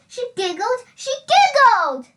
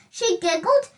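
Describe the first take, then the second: First: Higher and louder, giggling delight; building to a happy burst. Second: Said in the usual way. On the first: A narrator's reading. Narrator ending the story on a joyful high note. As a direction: let the last one burst out joyfully.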